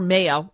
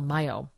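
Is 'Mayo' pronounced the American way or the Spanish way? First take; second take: American; Spanish. First: The name is said with an American pronunciation. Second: The name is said with a Spanish pronunciation.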